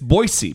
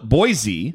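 First: The name is said the local way. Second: The name is said the outsider way. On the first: The speaker lives in the city. The speaker calls it right. "and it's Boise. People who live there call it Boise" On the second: The speaker is not from the city. The speaker calls it wrong. "People who are not from Boise call it Boise"

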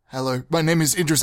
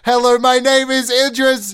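First: It is spoken at a soft, modest volume. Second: It is spoken at a very loud, shouted volume.

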